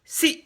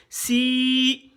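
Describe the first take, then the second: First: "si" with a brief i; quick, high "si"; short vowel. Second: "si" held long and high; sustained, raised "si"; drawn-out vowel. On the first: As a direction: cut "si" short. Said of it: "C'est bref, non". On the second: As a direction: stretch the i of "si". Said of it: "pour tirer". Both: Shown as a demonstration.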